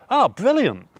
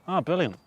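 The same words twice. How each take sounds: First: It is said with strong, enthusiastic emphasis. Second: It is said flatly, sounding sarcastic. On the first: The speaker genuinely means it is good. "I've got to really emphasize the" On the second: The speaker does not really mean it. "that sounds like I'm just sort of sarcastic"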